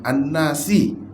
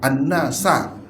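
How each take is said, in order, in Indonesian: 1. Kata itu berakhir dengan vokal 'i' pendek. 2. Kata itu berakhir dengan vokal 'a' pendek. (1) "bukan An-Nasi" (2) "kata dia An-Nasa"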